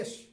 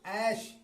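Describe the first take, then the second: First: The vowel is a plain 'e' sound. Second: The vowel is an open 'ai' sound. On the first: The speaker calls it wrong. "अगर इसे कोई एश पढ़ देता है" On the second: The speaker calls it right. "ऐ की मात्रा के साथ"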